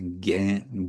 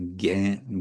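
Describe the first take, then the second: First: It is said with the modern Bengali pronunciation. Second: It is said with the modern Bengali pronunciation.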